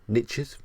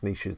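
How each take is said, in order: First: It is said in an American accent. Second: It is said in a British accent.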